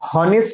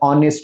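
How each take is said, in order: First: The word begins with an h sound. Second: The word begins with a vowel sound. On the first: The speaker calls it wrong. "हॉनेस्ट नाही म्हणत" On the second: The speaker calls it right. "ऑनेस्ट म्हणतो आपण"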